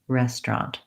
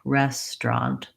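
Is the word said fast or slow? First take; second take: fast; slow. First: The word is said quickly. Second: The word is said slowly. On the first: "put it together more quickly" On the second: "slow down and break it apart"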